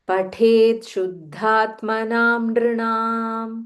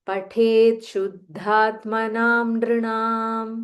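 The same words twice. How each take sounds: No difference in how they are said.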